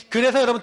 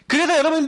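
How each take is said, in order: First: Said in the usual way. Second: 그래서 called out higher and louder. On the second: Shown as a demonstration. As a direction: raise the voice on 그래서 to rouse the congregation. (그래서를 더 높고 크게 외치듯)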